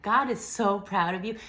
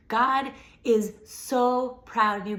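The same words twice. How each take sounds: First: Said in the usual way. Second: Louder, higher, slower insistence; swelling blessing, louder and slower; emphatic. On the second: Real, not acted. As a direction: lean hard into every word. Repeating the blessing, building.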